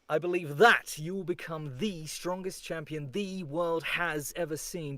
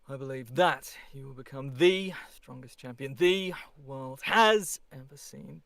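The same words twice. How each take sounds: First: Every word is pushed hard and heard clearly. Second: Key words are hit; the rest are mumbled. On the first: "Even harder" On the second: "on every other word, I barely want to hear you. Mumble it"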